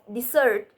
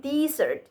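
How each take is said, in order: First: Dessert with the weight on its last syllable; stress on second syllable. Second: Dessert said with the first syllable stressed, like DEsert. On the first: Presenter giving the intended word, dessert stressed on the second syllable. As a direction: push the end of dessert. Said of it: "instead of". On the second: Presenter showing a learner's mistake, dessert stressed on the first syllable. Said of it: "saying dessert instead of dessert". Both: Shown as a demonstration.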